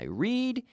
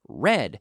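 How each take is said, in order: First: The word does not sound like red. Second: The word sounds like the color red. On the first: It is present tense. "Every day I read" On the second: It is past tense. "The pronunciation in the past is just like the color red"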